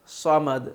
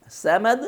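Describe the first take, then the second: First: "صمد" lower, with heavy rounded s; thick saad. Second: "سمد" high, with a plain light s; thin seen. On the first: Teacher contrasting two readings, thickened saad. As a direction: say "صمد" as "sawmad", tongue back. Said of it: "موٹا ادا ہوتا ہے۔". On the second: Teacher contrasting two readings, thin seen. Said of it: "سین simple ادا ہوتا ہے". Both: Shown as a demonstration.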